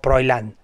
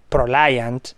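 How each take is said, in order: First: The i sound comes before the l. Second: The i sound comes after the l. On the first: The speaker calls it wrong. "¿cómo Proilant?" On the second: The speaker calls it right.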